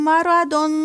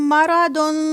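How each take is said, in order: The two takes are said the same way.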